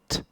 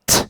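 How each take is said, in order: First: The consonant is said with normal, lighter force. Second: The consonant is punched out with strong force. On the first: "there's a lower peak" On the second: "there's a higher peak where I punch it"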